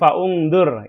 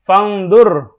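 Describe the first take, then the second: First: A 'u' vowel is pronounced between fa and ngdur. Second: The hamzah is dropped; fa joins directly to ngdur. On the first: The speaker calls it wrong. "bukan faungdur" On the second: The speaker calls it right. "Fangdur, bukan faungdur"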